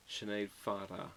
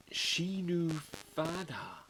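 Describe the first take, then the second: First: Sinead Farah with "shi-NAYD" as first name; mistaken pronunciation. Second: Shinu Fada, slowly as SHEE-noo FAH-da; corrected pronunciation. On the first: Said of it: "I'm not saying that right". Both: Shown as a demonstration.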